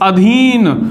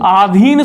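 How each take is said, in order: First: The first vowel is short. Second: The first vowel is long. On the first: The speaker calls it right. "शब्द होता है अधीन" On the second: The speaker calls it wrong. "आधीन शब्द नहीं होता"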